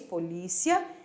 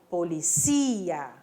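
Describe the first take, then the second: First: It is said with the Portuguese stress placement. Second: It is said with the Spanish stress placement. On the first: "ou em português, polícia" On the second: "Em espanhol, policia"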